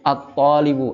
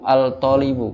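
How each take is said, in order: First: The L blends into the following T sound. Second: The L is pronounced before the T sound. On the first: The speaker calls it right. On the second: The speaker calls it wrong.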